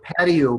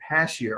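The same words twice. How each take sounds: First: Said in the usual way. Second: "patio" said with a sh sound, like "pashio"; mispronounced patio. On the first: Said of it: "if you can't pronounce the word patio properly". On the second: Shown as a demonstration. Teacher showing a test taker's mistake, "patio" mispronounced as "pashio". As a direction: turn the t of "patio" into sh. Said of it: "a lot of people probably pronounce that pa".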